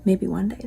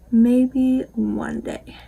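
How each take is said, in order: First: Said in the usual way. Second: Hushed dreamy whisper of a wish; slow whisper. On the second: Pretend. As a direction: whisper "Maybe one day" slowly and breathily, no voice. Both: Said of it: "repeats in whisper".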